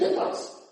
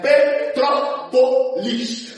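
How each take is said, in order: First: Part of the word is swallowed and disappears. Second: Every syllable of the word is clearly pronounced. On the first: The speaker calls it wrong. "fica Petrópolis. Some" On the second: The speaker calls it right. "é Petrópolis"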